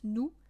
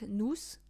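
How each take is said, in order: First: The word ends without an s sound. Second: The word ends with an audible s sound. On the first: The speaker calls it right. "you don't pronounce the s at the end, so it's nous" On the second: The speaker calls it wrong. "and not nous"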